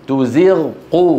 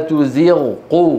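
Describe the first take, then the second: The two takes are said the same way.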